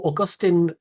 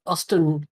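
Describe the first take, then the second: First: Augustin, said aw-GUS-tin, three syllables; careful corrected Augustin, stress on GUS; corrected name. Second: Austin, said AW-stin, two syllables; name misread as Austin, AW-stin. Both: Real, not acted.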